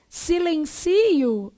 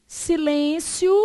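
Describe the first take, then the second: First: Silencio drawn out, stressed si-len-CI-o. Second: Silêncio drawn out, stressed si-LÊN-cio. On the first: Teacher contrasting two words, stress on CI in Silencio. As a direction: lean slowly on the CI in Silencio. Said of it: "Silencio é isso". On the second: Teacher contrasting two words, stress on LÊN in Silêncio. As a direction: lean slowly on LÊN in Silêncio. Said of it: "é isso". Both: Shown as a demonstration.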